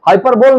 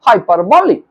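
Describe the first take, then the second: First: The word ends on an L sound. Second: The word ends on an 'ee' sound. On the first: The speaker calls it wrong. "हाइपरबोल ना कहिएगा" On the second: The speaker calls it right. "इस true pronunciation is हाइपरबोली"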